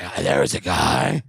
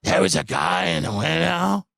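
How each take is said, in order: First: Imitating a dramatic storyteller; hammed-up eerie whisper-like telling; hushed creepy mock narration; mock spooky voice. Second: Slow, drawn-out dramatic line; mocking the friend's put-on voice; mock affectation. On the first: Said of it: "Why are you talking like that?". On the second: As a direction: ham up the spooky pause. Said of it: "putting on an affectation for".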